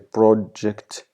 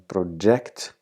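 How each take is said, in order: First: The stress is on the first syllable. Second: The stress is on the second syllable. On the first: "you uh, stress the first syllable, which is pro" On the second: "if you stress the second"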